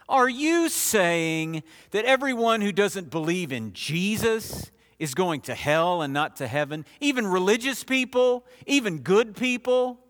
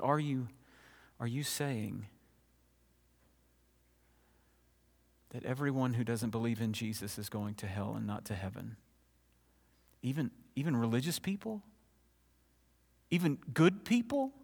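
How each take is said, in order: First: It is asked in an insincere, challenging tone. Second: It is asked in a sincere, trembling tone.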